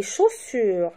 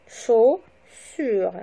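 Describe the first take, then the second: First: Said in the usual way. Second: "Chaussures" split chau, pause, ssures; syllable by syllable. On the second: Shown as a demonstration. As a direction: break "Chaussures" into two slow, separate syllables. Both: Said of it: "le découpage syllabique".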